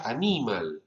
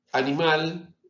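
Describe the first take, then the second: First: "animal" acentuado en la segunda sílaba, a-NI-mal. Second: Said in the usual way. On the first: Shown as a demonstration. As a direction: stress the NI of "animal", as in Latin. ("animal" como palabra grave, a-NÍ-mal) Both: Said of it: "en latín era animal".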